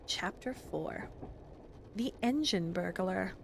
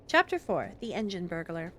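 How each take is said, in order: First: Slow, hushed, drawn-out chapter title; slow quiet title. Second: Said in the usual way. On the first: Shown as a demonstration. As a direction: murmur the title slowly, as if testing it.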